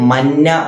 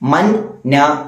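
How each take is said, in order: First: The syllables merge into one doubled n. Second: The two syllables are said separately. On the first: The speaker calls it right. "മന്ന എന്ന് ഓതി" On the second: The speaker calls it wrong. "മൻ ന എന്ന് ഓതേണ്ട സ്ഥലത്ത്"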